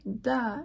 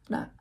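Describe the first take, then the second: First: The tongue stops fully, then releases a burst. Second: The tongue quickly taps the ridge without a burst. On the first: "Instead of like da" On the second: "it's da"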